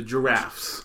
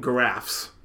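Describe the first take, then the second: First: "giraffes" with a J sound; soft G. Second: "giraffes" as guh-RAFFS; hard G. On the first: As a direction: start "giraffes" like jam. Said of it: "You don't call 'em giraffes". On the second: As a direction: start "giraffes" with G as in go. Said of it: "you don't call 'em". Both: Shown as a demonstration.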